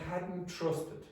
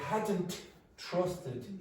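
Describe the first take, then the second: First: The T at the end of hadn't is dropped. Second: The T at the end of hadn't is pronounced. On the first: The speaker calls it right. "you generally drop the T" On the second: The speaker calls it wrong. "no English speaker would say"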